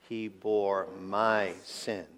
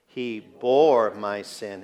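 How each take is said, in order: First: The word 'sin' carries the main stress. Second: The word 'bore' carries the main stress. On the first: It was my own sin that was borne. "with the emphasis on the last" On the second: The act of bearing it is what matters. "the fact that he bore my sin"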